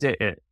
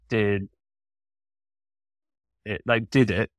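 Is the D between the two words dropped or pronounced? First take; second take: dropped; pronounced. First: The D between the words is dropped. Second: The D between the words is clearly pronounced. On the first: "they would be like, ... But you can't ever drop a D in that accent" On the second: "if they said, like"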